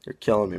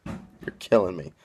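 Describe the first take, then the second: First: Said in the usual way. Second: Killing drawn long in playful despair. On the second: Real, not acted. Exasperated banter at Mike, repeated.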